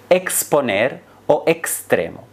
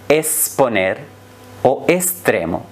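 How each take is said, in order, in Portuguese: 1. O x é pronunciado como ks. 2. O x é pronunciado como um s simples. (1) "a pronúncia normativa e culta" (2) "com o som de S"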